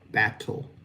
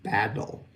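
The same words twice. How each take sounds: First: The middle T is released with a puff of air. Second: The middle T is an unreleased flap, like D. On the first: "we use that T, which is unvoiced" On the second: "Americans will use what's called a flapped T"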